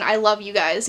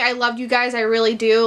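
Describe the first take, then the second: First: A quiet, sad, lower I love you guys; soft sad whisper. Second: Said in the usual way. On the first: Retold or imitated. Friend saying goodbye to his childhood friends, soft and sad. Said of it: "you hear him whispering, like, in a sad tone". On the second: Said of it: "it ends with him saying".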